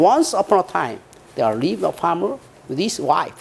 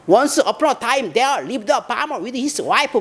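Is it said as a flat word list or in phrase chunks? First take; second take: phrase chunks; word list. First: It is broken into phrases with short pauses. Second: It is run together like a list of words.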